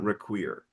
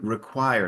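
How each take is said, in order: First: The last syllable has a closed vowel. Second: The last syllable has an open vowel. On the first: The speaker calls it wrong. "not require" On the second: The speaker calls it right. "and then require"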